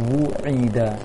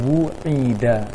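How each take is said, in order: No difference in how they are said.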